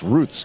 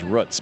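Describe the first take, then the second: First: Roots is said with the usual pronunciation. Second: Roots is said with a Michigan pronunciation. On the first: This is how most other people say it. "everybody else says no, no, it's roots" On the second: This is how it was said where the speaker grew up. "I grew up in Michigan. It was roots"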